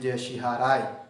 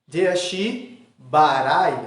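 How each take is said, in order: First: The second word starts with an h sound. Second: The second word starts with a b sound. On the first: The speaker calls it wrong. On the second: The speaker calls it right.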